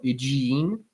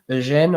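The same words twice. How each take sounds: First: The name is pronounced the English way. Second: The name is pronounced the French way. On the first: "or English pronunciation?" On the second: "Is this the French pronunciation"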